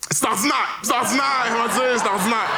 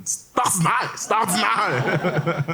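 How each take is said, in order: First: Mocking shout. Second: High, very slow drawn-out "c'est ordinaire"; mock judge echo. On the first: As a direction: fling the phrase back, shrieking and fast. Throwing judge's phrase back. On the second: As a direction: stretch each word, pitched up, laughing. Muttering the phrase to juror.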